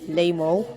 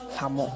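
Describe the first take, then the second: First: The name begins with an L sound. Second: The name begins with an H sound. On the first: The speaker calls it wrong. "some people will pronounce like Lamo" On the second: The speaker calls it right. "it is pronounced as Hamo"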